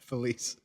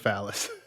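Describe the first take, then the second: First: The name is said like 'fuh-leese'. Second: The name is said like 'fallus'. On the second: "Jeff always calls her Phallus"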